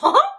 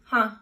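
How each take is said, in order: First: It is said in a Mickey Mouse voice. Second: It is said in the speaker's natural voice.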